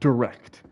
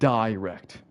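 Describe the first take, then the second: First: The first vowel is short and light. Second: The first vowel is a full 'eye' sound. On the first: This is the usual American way. "At least in American English, you can just say direct" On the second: This is probably a British way. "They're putting a lot of emphasis on that I"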